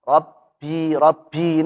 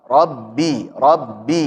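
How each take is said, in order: First: "Rabbi" with a puff on the b, like "rappi"; wrong airy ba. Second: "Rabbi" with a solid b, no air; correct voiced ba. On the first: Teacher shows the error, airy "Rabbi". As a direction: leak air into "bi" of "Rabbi". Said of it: "ini salah". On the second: Teacher corrects the airy error, solid voiced "Rabbi". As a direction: close firmly on the double b in "Rabbi". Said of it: "huruf ba jangan ada hamesnya". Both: Shown as a demonstration.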